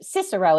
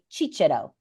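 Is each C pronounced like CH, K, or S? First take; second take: S; CH. First: Each C is pronounced as an S sound. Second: Each C is pronounced as a CH sound. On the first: This is the English pronunciation. "is how we would say it in in in Anglo in in English" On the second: This is the Italian or church pronunciation. "the Italians would say Cicero, right? So that's soft C"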